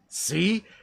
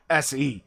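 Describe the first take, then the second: First: It is said as the single sound 'see'. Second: It is said as two letters, 'ess ee'. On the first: The speaker calls it wrong. "don't recommend calling it C" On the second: The speaker calls it right. "It's much easier if you call it S E"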